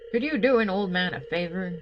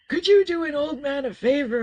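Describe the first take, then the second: First: It is spoken in the speaker's ordinary voice. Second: It is spoken in a put-on old man's voice. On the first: The speaker calls it wrong. "I'm not doing my George voice" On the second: The speaker calls it right. "It's very much"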